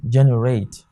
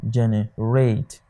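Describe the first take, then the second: First: Said in the usual way. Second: Generate, divided, with weight on RATE; stress on third syllable. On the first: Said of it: "it is pronounced generate". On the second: Shown as a demonstration. Teacher showing how generate is pronounced, stressed on RATE. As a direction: lean on the last part, RATE, in generate. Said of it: "Your stress is on the third syllable".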